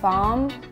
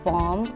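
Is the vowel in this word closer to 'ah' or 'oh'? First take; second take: ah; oh. First: The vowel sounds like an open 'ah'. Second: The vowel sounds like a rounded 'oh'. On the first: This is how it sounds in Nigeria. "В Нигерии больше слышно а" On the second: This is how it sounds in America. "а в Америке говорят бом"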